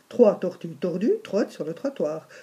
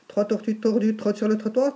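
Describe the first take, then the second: First: The sentence is said at a slow pace. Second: The sentence is said at a fast pace.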